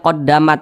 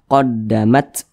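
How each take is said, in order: First: The final t ends with no hiss of air. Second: The final t ends with an audible hiss of air. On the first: The speaker calls it wrong. "Jangan dibaca qaddamat. Nah, tidak ada desisannya. Nah, itu salah" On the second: The speaker calls it right. "Tapi dia harus ada desisannya"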